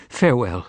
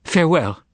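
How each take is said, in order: First: Soft cry. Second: Higher, more fervent farewell; soft cry out. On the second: Margarita bids Voland goodbye, fervent soft cry. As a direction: call out farewell, prayerful. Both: Acted. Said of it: "she cried out softly".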